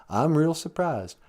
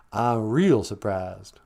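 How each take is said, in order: First: Said in the usual way. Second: "I'm real surprised" drawn out slowly and lower; slow it way down on the repeat. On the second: Shown as a demonstration.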